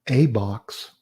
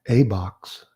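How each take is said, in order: Both takes have the same delivery.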